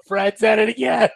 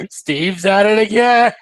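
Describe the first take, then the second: First: High playful callout; mock callout, corrected name. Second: Higher, louder, slow cry of mock despair; mock exasperated callout. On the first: Correcting himself to say Fred, high playful callout. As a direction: sing out the fixed name with glee. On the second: Joking about a Changeling bombing a bug light, mock exasperated callout. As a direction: call it out like a sitcom catchphrase.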